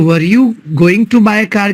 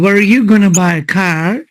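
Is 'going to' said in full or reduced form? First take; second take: full; reduced. First: 'Going to' is said in full. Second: 'Going to' is reduced to 'gonna'. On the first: "की जगह" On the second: "बोलो वर you गोना by car"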